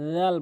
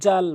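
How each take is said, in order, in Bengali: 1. প্রথম ব্যঞ্জনটি একটি নরম th ধ্বনি। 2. প্রথম ব্যঞ্জনটি একটি গুঞ্জনধর্মী z ধ্বনি। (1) "জিব্বার আগাটি নিয়ে সামনে দুইটি দাঁতের আগাতে লাগাবেন" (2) "জাল বলা যাবে না"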